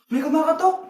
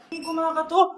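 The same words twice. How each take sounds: First: Said in the usual way. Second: Softer, with a put-on crying catch; hammed-up scared whimper; mock frightened whimper. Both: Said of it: "takot na takot ah".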